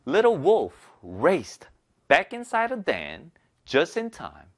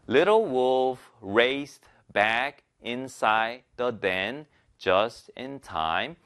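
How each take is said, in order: First: Key words are stronger; small words are weak. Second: Every word is read evenly, one by one.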